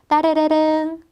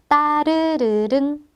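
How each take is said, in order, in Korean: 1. 이 단어는 빠르게 발음돼요. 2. 이 단어는 느리게 발음돼요.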